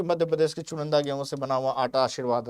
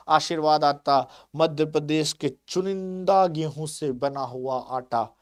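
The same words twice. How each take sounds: First: Said in the usual way. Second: Slow, lightly voiced TV-ad read; mock ad slogan. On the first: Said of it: "उसी तरह का ऐड करते हैं". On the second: Teacher quoting a flour ad to students, slow mock advert voice. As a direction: savour each word like a flour commercial. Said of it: "इस तरह से कहते हैं लोग".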